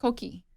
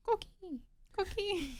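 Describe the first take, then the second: First: Said in the usual way. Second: High, soft chirping coqui; coqui frog call. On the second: Retold or imitated. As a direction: imitate the little frog's chirp. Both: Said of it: "What is the sound the Puerto Rican frog makes?".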